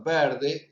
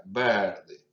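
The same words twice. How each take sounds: First: Verde with the E pushed wide open; exaggerated open E. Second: Said in the usual way. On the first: Shown as a demonstration. Teacher exaggerates the open E in verde for students. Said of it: "lo hago un poco exagerado". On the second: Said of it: "un poquito más abierta".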